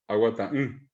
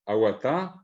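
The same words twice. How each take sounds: First: Aguatá then hummed nasal mm; negated with nasal mm. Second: Said in the usual way. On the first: Shown as a demonstration. Teacher shows negation: aguatá then nasal mm. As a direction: add a nasal mm after aguatá. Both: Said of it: "le pongo la mm nasal".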